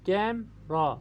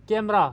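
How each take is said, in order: First: camera split as कैम, pause, रा; syllable break. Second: Said in the usual way. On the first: Shown as a demonstration. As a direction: say camera in two separate beats. (Camera को तोड़कर, कैम... रा) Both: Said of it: "इसमें दो syllable हैं".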